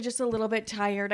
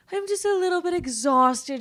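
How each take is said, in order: First: Said in the usual way. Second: Higher, louder and whinier, hamming up being tired; whiny exhausted. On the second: Real, not acted. Telling viewers she's been up since five, exaggerated whine. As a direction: moan it like a drama queen.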